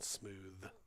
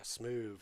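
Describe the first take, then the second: First: The word ends with a TH sound. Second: The word ends with a V sound. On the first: "the T H sound" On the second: "less work for your mouth to say"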